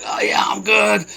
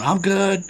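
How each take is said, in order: First: High, strained shout of forced reassurance; strained fake-fine. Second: Higher, lighter mock reassurance; wry fake-fine. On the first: Man holding his injury tells worried shoppers he's fine, strained high shout. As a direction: pretend you're fine through the pain. Retold reply while in pain. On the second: Recalling lying on the floor telling people he's fine, light high mock reassurance. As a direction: toss off a pretend I'm good.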